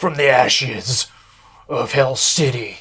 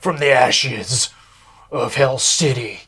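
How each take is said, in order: First: It is said in a dramatic movie-trailer voice. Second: It is said in a dramatic movie-trailer voice.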